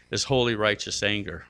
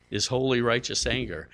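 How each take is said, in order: Both takes have the same delivery.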